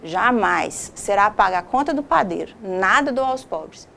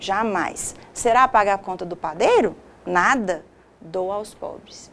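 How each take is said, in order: First: There is no pause between 'nada' and 'dou'. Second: There is a pause between 'nada' and 'dou'.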